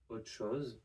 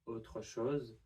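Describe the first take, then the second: First: The final r of autre is left out. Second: The final r of autre is pronounced.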